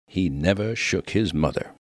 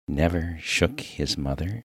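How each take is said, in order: First: Said in the usual way. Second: "Never shook his mother?" as a doubtful question; puzzled echo. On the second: Acted. Minister baffled by the miner's praise, echoing "Never shook his mother?" questioningly.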